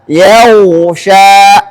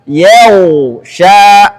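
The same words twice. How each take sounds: Both takes have the same delivery.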